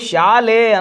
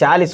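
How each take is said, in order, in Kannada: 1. ಈ ಪದ e ಧ್ವನಿಯಲ್ಲಿ ಕೊನೆಗೊಳ್ಳುತ್ತದೆ. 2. ಈ ಪದ i ಧ್ವನಿಯಲ್ಲಿ ಕೊನೆಗೊಳ್ಳುತ್ತದೆ. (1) "ಈ ಕಡೆ ಅವರು ಶಾಲೆ ಅಂತ ಕರೀತಾರೆ" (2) "ಈ ಕಾರ"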